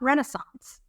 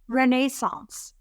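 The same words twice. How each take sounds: First: The word is said with an American pronunciation. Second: The word is said with a British pronunciation. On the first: This is how she would normally say it. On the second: This is how her husband says it. "as my British husband would say"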